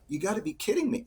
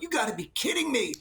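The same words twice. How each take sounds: First: It sounds exasperated and disappointed. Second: It sounds amazed and delighted.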